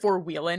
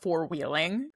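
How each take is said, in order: First: The final g sound is dropped, country style. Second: The final g sound is fully pronounced. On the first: "we know you're from the country because you said four wheeling" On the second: "and not"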